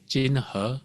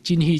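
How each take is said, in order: First: The second syllable sounds like 'her'. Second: The second syllable sounds like English 'he'. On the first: This is the native Chinese pronunciation. The speaker calls it right. "In Chinese it's" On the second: This is how English speakers read the spelling. The speaker calls it wrong. "in the U S, everyone will say"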